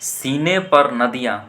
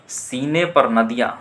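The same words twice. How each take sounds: Both takes have the same delivery.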